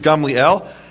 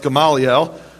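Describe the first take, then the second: First: The name is said with three syllables. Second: The name is said with four syllables. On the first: The speaker calls it right. "the correct pre- Hebrew pronunciation is Gamliel" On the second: The speaker calls it wrong. "you probably thought it was pronounced Gamaliel"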